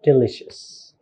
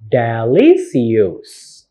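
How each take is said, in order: First: "delicious" said smoothly with a sh sound; correct pronunciation. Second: "delicious" drawn out as de-LI-si-yus; wrong spelling pronunciation. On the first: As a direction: model "delicious" as de-LISH-us. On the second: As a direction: slowly misread "delicious" with s-i-us instead of sh. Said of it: "It's not". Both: Shown as a demonstration.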